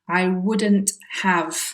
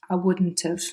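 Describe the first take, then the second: First: Said slowly with every sound fully pronounced. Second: Said quickly with weakened, linked sounds. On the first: "that's my very slow and careful version" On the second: "it sounds more like"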